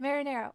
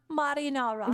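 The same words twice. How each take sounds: First: Said in the usual way. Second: "marinara" with British ah, ma-ree-NAH-ra; British pronunciation. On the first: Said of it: "There, I said it". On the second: Shown as a demonstration. Streamer offering both versions, "marinara" British-style as ma-ree-NAH-ra. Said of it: "The British one sounds so posh".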